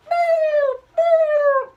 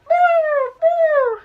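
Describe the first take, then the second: First: Nasal boo with a pinched nose; pinching nose. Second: Pinched nose wail; pinching nose. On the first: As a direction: hold your nose and wail boo. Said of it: "plug your nose like this". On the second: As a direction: hold your nose and sing out boo. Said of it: "Everybody do man overboard with me". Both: Shown as a demonstration.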